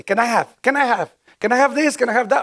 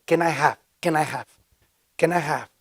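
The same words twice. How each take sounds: First: "Can I have?" climbing higher with each try; an eager newcomer practising the English phrase; anxious, rising repetition of "Can I have this? Can I have that?"; nervous rehearsing. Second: Patient repetition of "Can I have?"; calmly drilling "Can I have?" for a newcomer; calm coaching. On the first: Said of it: "y yo me recuerdo así". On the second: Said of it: "Ok, solo di esto". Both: Retold or imitated.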